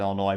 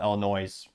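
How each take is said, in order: First: The word ends without an s sound. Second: The word ends with an s sound, like noise. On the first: This is how people from the Midwest say it. "if you're actually from the Midwest, they pronounce it" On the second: This is how people from outside the Midwest say it. "if you're not, most people call it"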